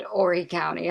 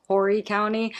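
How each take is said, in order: First: Horry said as if spelt "Orry"; silent H. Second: Host repeating her own mistaken version, Horry with a sounded H; H pronounced. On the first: Host echoing the guest's version, Horry with no H. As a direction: drop the H at the start of Horry. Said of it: "she said Horry County. I don't think the H is pronounced". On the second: Host admits her habit, Horry said with the H. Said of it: "I don't think the H is pronounced". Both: Shown as a demonstration.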